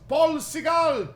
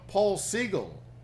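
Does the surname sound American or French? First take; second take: French; American. First: The surname is said with a French-sounding pronunciation. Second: The surname is said with an American-sounding pronunciation. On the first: This is how people in West Africa said the name. The speaker calls it right. "people would yell in the marketplace" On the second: This is how people in America said the name. The speaker calls it wrong. "people said, you know"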